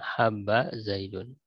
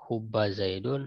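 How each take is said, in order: First: The first vowel is an open 'a'. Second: The first vowel is a rounded 'u'. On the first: "dan memfathahkannya" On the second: "boleh mendomahkan ha"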